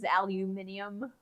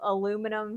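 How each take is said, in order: First: It has five syllables, ending in "-nium". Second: It has four syllables, ending in "-num". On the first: The speaker calls it right. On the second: The speaker calls it wrong.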